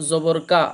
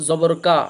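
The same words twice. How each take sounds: The two takes are said the same way.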